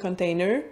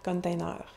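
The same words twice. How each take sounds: First: The word is pronounced as in English. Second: The ending is French, rhyming with 'beurre'. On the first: This is how people around Montreal tend to say it. "le prononcer en anglais" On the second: This is how people east of Quebec City say it. "ils vont prononcer beaucoup container"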